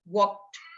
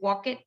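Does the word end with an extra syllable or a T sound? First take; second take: T sound; extra syllable. First: The ending is a short T sound. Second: The ending is an extra syllable, like 'it'. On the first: The speaker calls it right. "you have to make a T sound" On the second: The speaker calls it wrong. "No, that's not correct"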